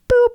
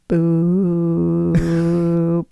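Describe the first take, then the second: First: It is said short and quick. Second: It is drawn out for a long time.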